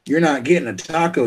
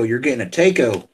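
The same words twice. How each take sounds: First: "taco" said with an open AH, as TAH-ko. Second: "taco" said with a long A, as TAY-ko. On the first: Correcting someone's order, "taco" said TAH-ko. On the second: Correcting someone's order, "taco" said as TAY-ko. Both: Shown as a demonstration. Contrasts two ways of saying taco.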